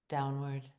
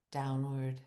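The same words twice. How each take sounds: The two takes are said the same way.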